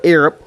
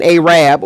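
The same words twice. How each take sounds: First: Arab said AIR-ub, short vowels; Arab as AIR-ub, quick; standard way. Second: Arab said AY-rab, long first vowel; her accent. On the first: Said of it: "or you wanna call it Arab". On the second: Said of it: "that's my accent". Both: Shown as a demonstration.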